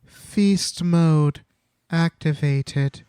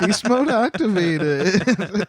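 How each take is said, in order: First: Slow, higher-pitched mock announcer; deliberate, drawn-out title reveal; mock announcement. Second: High, slow announcement through laughter; drawn-out mock title, giggling; laughing announcement. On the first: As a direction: announce it word by word with pauses. Answers with a mock chapter title. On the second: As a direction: crack up while repeating the grand title. Repeats the title joke amid laughter.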